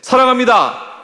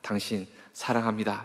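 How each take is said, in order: First: It is said too loudly and forcefully. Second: It is said softly and warmly.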